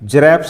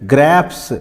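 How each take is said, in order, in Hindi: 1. यह शब्द j ध्वनि से शुरू होता है। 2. यह शब्द कठोर g से शुरू होता है। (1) "जरैप्स नहीं बोलेंगे" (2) "क्या बोलेंगे? ग्रैप्स"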